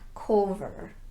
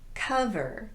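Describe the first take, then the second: First: The first vowel is a rounded vowel. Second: The first vowel is an unrounded uh. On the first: The speaker calls it wrong. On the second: The speaker calls it right. "the unrounded uh sound"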